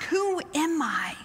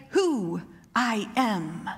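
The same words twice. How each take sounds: First: "Who am I" asked slowly as a question; questioning tune. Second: "Who I am" in slow, separate, falling words; statement with a period. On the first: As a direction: ask "Who am I" wondering, higher on WHO. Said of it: "with a question mark". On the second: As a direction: state "Who I am" low and final, full stop. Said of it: "with a period". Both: Shown as a demonstration.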